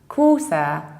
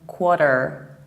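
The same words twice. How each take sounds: First: It is said in a non-American accent. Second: It is said in an American accent.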